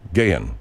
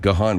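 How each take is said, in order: First: The first syllable sounds like 'gay'. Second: The first syllable sounds like 'gah'. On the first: The speaker calls it right. "It's Gayon Wilson" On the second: The speaker calls it wrong. "I used to pronounce it Gahan Wilson"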